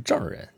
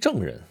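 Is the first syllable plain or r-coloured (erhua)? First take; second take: r-coloured; plain. First: The first syllable is said with an r-ending. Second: The first syllable is said without an r-ending. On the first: A person defined by certificates. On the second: A person from the state of Zheng.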